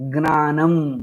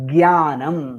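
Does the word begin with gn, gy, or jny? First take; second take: gn; gy. First: The word begins with a g followed by n. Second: The word begins with a g followed by y. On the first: "गकारः नकारः दीर्घः एतस्य उच्चारणं कुर्वन्ति" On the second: "गकारः अनन्तरं यकारः अनन्तरं दीर्घः"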